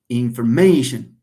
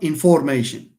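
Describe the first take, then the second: First: The stress is on the second-to-last syllable. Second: The stress is on another syllable. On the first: The speaker calls it right. "stress falls on the penultimate" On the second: The speaker calls it wrong. "Not information"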